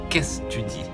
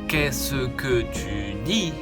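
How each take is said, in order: First: The word que is dropped entirely. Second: The word que is said in full. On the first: The speaker calls it right. "on va parler un peu plus vite" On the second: The speaker calls it wrong. "C'est trop long"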